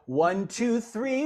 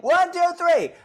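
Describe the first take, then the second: First: It is said at moderate volume. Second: It is yelled loudly.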